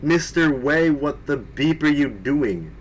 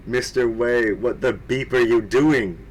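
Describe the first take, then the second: First: Mock angry shout. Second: Said in the usual way. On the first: A narrator's reading. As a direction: bark it like a cartoon headmistress scolding. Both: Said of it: "Rumbridge shouted angrily".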